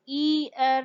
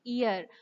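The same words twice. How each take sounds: First: ईयर split into two separate vowels with a break; wrong gapped version. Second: ईयर as one sound gliding from ई to अ; smooth glided version. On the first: Teacher showing the wrong choppy way, mild demo. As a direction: say ईयर with a stop between ई and यर. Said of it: "ईयर नहीं, हम नहीं बोलते". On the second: Teacher showing the right flowing way, soft demo. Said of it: "हम ईयर बोलते हैं". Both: Shown as a demonstration.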